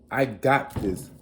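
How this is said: It sounds confident and self-assured.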